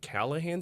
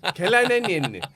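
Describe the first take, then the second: First: The name is said clearly and plainly. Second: The name is said in a garbled, mangled way. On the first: This is how the name is actually said. The speaker calls it right. "It's pronounced Callahan" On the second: The reader cannot manage the unfamiliar name. The speaker calls it wrong. "she goes Kalinin"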